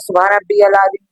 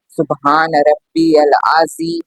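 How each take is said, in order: First: It is said fast and hurriedly. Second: It is said slowly and calmly.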